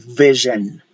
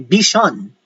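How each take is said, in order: First: The middle consonant sounds like a Z. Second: The middle consonant sounds like an S. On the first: The speaker calls it right. "We say vision. That is the proper pronunciation" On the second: The speaker calls it wrong. "We don't say vision"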